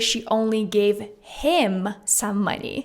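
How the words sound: The stress falls on the word him. She gave money to him specifically, not others. "emphasizing the word him"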